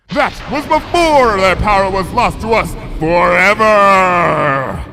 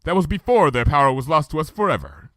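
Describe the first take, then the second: First: Loud, high, slow thunderous declaration; booming royal voice. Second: Said in the usual way. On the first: Acted. Luna's grief booming out with lightning, thunderous. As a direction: boom it out like a storm. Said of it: "Watch it".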